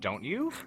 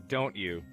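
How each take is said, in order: First: It rises at the end, like a question. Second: It falls at the end, like a statement.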